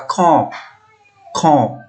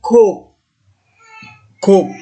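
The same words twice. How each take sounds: First: Kop with nasalised o, air out the nose; teacher repeating nasal kop. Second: Kop with a clean oral o, higher and louder; teacher contrasting oral kop. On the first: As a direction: let kop ring through the nose. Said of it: "udara keluar melalui hidung". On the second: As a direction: say kop without nasal air. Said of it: "Tapi kalau yang seperti ini". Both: Shown as a demonstration.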